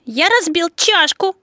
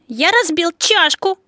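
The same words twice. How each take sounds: First: The stress falls on the word чашку. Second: The same.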